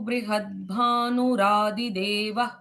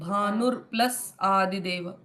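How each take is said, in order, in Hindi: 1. शब्द एक ही सांस में, एक साथ बोले जाते हैं। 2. शब्द अलग-अलग, बीच में रुककर बोले जाते हैं। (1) "वो एक सांस में पूरा एक लाइन" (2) "इसको मैंने स्प्लिट किया"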